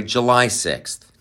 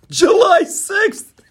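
First: Said in the usual way. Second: High, slow, squeaky mock exclamation; mocking Biden's flub. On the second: Host mocking Biden's flub about July sixth. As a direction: mimic the slip with a shrill cry. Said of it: "caught Joe Biden talking".

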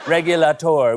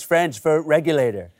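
First: Mock French. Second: Said in the usual way. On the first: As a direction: say Regulator with a hammy French accent.

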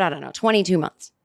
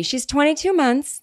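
First: Said in the usual way. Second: Lightly voiced parent giving a toddler's age, a bit higher; like a parent telling someone their kid's age in months; mock proud parent. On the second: Teasing listeners with a lightly voiced proud parent. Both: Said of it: "I'm starting to talk like someone who has a baby".

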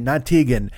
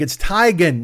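First: "Tegan" with TEE, like "tee-gun"; Tegan said wrong. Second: "Teigen" with TIE, like "tie-gun"; Teigen said right. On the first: Chrissy naming the old wrong way, "Tegan" as TEE-gun. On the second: Chrissy correcting people, "Teigen" as TIE-gun. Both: Retold or imitated. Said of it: "she's like".

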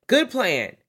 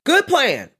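First: Said in the usual way. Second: Much higher, louder praise; emphatic approval. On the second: Real, not acted. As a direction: stamp it as a great plan. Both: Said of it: "Here's where we went wrong".

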